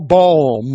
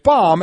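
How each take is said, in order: First: The vowel sounds like the one in 'boom'. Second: The vowel sounds like the one in 'bomb'. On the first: The speaker calls it wrong. "and you go boom" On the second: The speaker calls it right. "Like B O M B. It's bomb"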